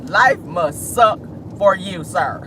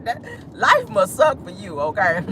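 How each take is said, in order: First: Slow mocking. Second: Laughing taunt. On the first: Laughing repeat, slower. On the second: Laughing at Andrew. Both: Real, not acted.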